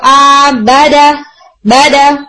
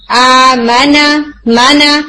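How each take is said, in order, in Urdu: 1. ناک بند ہے، اس لیے m اور n، b اور d کی طرح سنائی دیتے ہیں۔ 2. ہوا ناک سے گزرتی ہے، اس لیے m اور n صاف نیزل آوازیں ہوتی ہیں۔ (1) "اگر آپ نیزل کیویٹی بند کر دیتے ہیں اور غنہ نون کے اندر ادا نہیں کرتے" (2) "اپنی ساؤنڈ کو الاؤ کریں کہ وہ نیزل کیویٹی"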